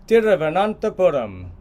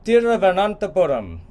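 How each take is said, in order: No difference in how they are said.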